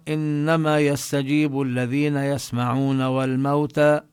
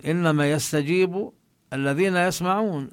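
First: "يسمعون" flowing straight into "والموتى" with no pause; no stop after "يسمعون", "والموتى" carried on; reading "والموتى" as if tied to "يسمعون"; wrong, run-on reading. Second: "يسمعون" falling to a full stop; firm fall and stop on "يسمعون"; stop after يسمعون. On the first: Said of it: "يعني، ألحق الموتى بالذين يسمعون". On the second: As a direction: close the phrase on "يسمعون" with a falling tone. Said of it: "أما الموتى فلا يستجيبون". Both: Shown as a demonstration.

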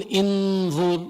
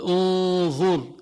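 First: انظر said "inẓur" with an opening i; انظر with a front i sound; wrong vowel. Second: انظر said "unẓur" with an opening u; انظر with a rounded u sound; correct vowel. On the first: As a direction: start انظر with a kasra, "inẓur". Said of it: "ما بتقول". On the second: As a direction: start انظر with a damma, "unẓur". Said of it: "بتقول". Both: Shown as a demonstration.

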